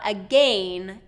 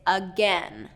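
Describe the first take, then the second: First: The second vowel sounds like an A. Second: The second vowel sounds like an E. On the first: The speaker calls it wrong. "it's not again" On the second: The speaker calls it right. "That vowel has been reduced from the A to the E"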